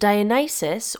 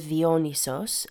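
First: The name is pronounced the usual English way. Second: The name is pronounced the Greek way.

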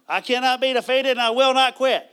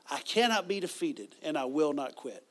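First: It is said in an imitated Texas accent. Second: It is said in the speaker's ordinary accent.

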